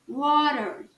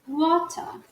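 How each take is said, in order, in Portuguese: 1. O R final é bem pronunciado. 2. O R final não é pronunciado. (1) "R bem enrolado" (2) "Já no inglês britânico, ... Perceba que o R não está sendo falado aqui"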